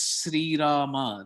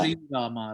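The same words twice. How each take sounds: First: The name begins with a plain s sound. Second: The name begins with an sh sound. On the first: "Normally, this is Sri" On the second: "They put that H sound in it and say"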